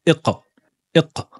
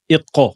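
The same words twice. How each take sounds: First: Iqa with no vowel after q, just a bounce; correct qalqala. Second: Iqa said fast with a full fatha vowel after q; the mistaken iqa, vowel added; wrong take. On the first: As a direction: clean iqa, q bounced only. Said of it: "là, absence de voyelles". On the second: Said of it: "Attention à ne pas dire iqa avec une fatha". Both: Shown as a demonstration.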